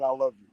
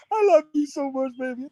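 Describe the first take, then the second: First: Said in the usual way. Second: Much higher, sugary mock of her gushing; high mocking coo; mock sweet love voice. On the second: Mocking her saying it early.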